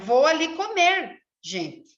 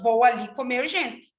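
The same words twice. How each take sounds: First: There is a pause after comer. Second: It runs on with no pause before gente.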